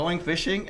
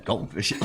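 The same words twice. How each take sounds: First: GOING FISHING with both -ing endings sounded; full endings. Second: GOING FISHING as goin' fishin'; dropped endings. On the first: Listener demonstrating the contrast, GOING FISHING fully pronounced. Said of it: "like, in the eyebrows there". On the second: Listener demonstrating the contrast, GOING FISHING with dropped endings. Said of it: "we're doing this shit". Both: Shown as a demonstration.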